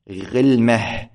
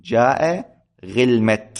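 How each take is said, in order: First: غلمة said slowly as ghilmah, ending in h; pausal ha ending. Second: غلمة said with a final t, ghilmat; ta kept at pause. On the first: Teacher demonstrating the most eloquent pausal form to students, slow. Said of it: "على الوجه الأفصح". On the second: Teacher giving students the permitted form with the ta kept. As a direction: keep the t in غلمة at the stop. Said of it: "ويجوز لك أن تقول". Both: Shown as a demonstration.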